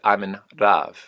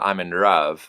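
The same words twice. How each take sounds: First: The L sounds almost like a trilled R. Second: The L sounds like a hard R. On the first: The speaker calls it right. "the L becomes sort of uh, almost like a trilled R" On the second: The speaker calls it wrong. "It's not a hard R. It's not I'm in love"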